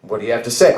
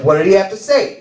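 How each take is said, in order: First: Said in the usual way. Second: Keen, pitched-up asking; eager question. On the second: Retold or imitated. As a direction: press for the answer, voice lifted. Retake, eager question to wife.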